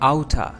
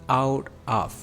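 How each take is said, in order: First: The two words blend into one reduced word. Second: Both words are said fully and separately. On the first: "इसके pronunciation outa" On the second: "the second last word is out of"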